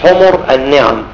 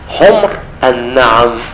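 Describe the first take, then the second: First: The first word is voweled differently from 'humr'. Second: The first word is pronounced 'humr'. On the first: The speaker calls it wrong. "بعضنا ممكن في الزحمة كده يقول لك" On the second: The speaker calls it right. "لا، حمر النعم. حمر جمع أحمر"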